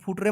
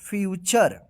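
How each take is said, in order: First: The middle consonant is a plain 't' sound. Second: The middle consonant is a 'ch' sound. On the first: The speaker calls it wrong. "इसको फुटरे मत पढ़िएगा" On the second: The speaker calls it right. "इसको पढ़ा जाएगा फ्यूचर"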